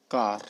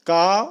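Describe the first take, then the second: First: कार with a clear R at the end; American R in कार. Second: का with no R at the end, open aa; British R-less का. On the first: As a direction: sound the final R in कार. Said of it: "American ही use करते हैं". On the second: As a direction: drop the R: का. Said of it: "British वाले र का pronounce ही नहीं करते". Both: Shown as a demonstration.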